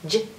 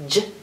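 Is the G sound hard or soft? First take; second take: soft; soft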